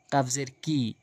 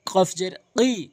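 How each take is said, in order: First: Said in the usual way. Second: কি as a drawn-out back-palate "qi"; emphatic q on কি, slow; heavy qof in কি. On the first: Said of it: "এই কাফটি এনে উচ্চারণ করা যাবে না". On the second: Shown as a demonstration. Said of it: "কফটি এনে উচ্চারণ করতে হবে".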